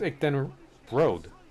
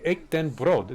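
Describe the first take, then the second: First: The R in brood is not rolled. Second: The R in brood is rolled. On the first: The speaker calls it right. "but it's ik den brood" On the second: The speaker calls it wrong. "I kept rolling the R. ... That's what I was saying"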